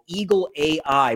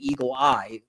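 First: The second word is spelled out as two letters. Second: The second word is said as one syllable, 'eye'.

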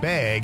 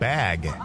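First: It is said with a Wisconsin accent. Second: It is said with a general American accent.

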